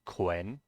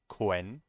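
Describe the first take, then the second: First: The syllable is said with a w sound. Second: The syllable is said with a w sound.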